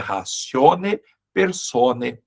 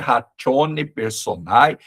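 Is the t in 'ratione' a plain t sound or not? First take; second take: not plain; plain t. First: The t in ratione is not a plain t. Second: The t in ratione sounds like a plain t. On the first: The speaker calls it right. "esse T seguido de ditongo, né, não é pronunciado como T" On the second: The speaker calls it wrong. "não é ratione personae"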